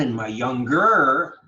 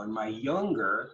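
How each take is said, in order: First: Put-on "younger" as young-GER, end loud and stretched; wrong-syllable stress. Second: Put-on "younger" as YOUNG-ger, first syllable stressed; natural stress. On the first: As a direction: slowly hammer the last syllable of "younger". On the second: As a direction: stress YOUNG in "younger", keep the end light. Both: Shown as a demonstration.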